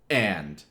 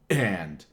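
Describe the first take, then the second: First: The word starts with a hard glottal catch. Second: The word starts with a hard glottal catch.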